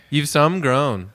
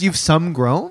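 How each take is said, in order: First: Slow Maritimes granny imitation; New Brunswick grandmother accent. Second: SOME GROWN read back as a rising question; questioning repeat. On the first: Grandson repeating Grammy's phrase, slow New Brunswick accent. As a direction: correct them in a Maritimes accent, drawn out. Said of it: "My Grammy from New Brunswick talks like that". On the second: Retold or imitated. Co-host checking Grammy's phrase, questioning tone. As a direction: echo it unsure, lifting the end.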